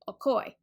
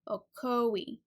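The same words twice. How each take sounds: First: It is said with two syllables. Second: It is said with three syllables. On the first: "Two syllables" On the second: "three syllables ... The stress on that second syllable"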